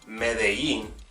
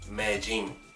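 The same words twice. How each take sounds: First: The double L sounds like an English y. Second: The double L sounds like an English j. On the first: "as opposed to saying" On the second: "many people say"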